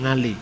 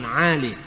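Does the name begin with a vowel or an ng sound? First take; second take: ng sound; vowel. First: The name begins with an ng sound. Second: The name begins with a plain vowel sound. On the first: "tapi ... Ngali" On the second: "Orang Jawa tidak bisa ngomong huruf Ain"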